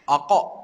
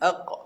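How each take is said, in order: First: The word ends with an extra vowel after it. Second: The word ends in a short clipped stop. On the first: The speaker calls it wrong. "Tak nak sebut aqa. ... Tak tak betul" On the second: The speaker calls it right. "Dia kena sebut sikit saja"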